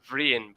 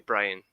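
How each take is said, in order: First: The name begins with a V sound. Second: The name begins with a B sound. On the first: "you could say Vrian" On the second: "They would say Brian"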